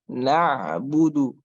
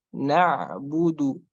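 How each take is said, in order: No difference in how they are said.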